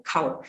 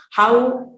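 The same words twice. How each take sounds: First: "cow" said for how; how turned into "cow"; k replacing h. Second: Said in the usual way. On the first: Shown as a demonstration. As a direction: start "cow" on k in place of h. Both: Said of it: "again the k sound".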